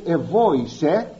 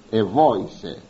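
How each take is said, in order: First: «ευόησε» drawn out slowly with a rising end; slow emphasis. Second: «ευόησε» said lower, falling to a close; low falling repeat. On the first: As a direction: lean slowly on «ευόησε», lifting at the close. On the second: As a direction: drop «ευόησε» down and finish it. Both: Shown as a demonstration. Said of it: "αλλάζει εδώ το ρήμα".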